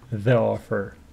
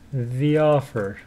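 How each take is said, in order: First: 'The' is said with a short 'uh' vowel. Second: 'The' is said with a long 'ee' vowel. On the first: The speaker calls it wrong. "it's not pronounced the offer" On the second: The speaker calls it right. "Because the is followed by a vowel sound"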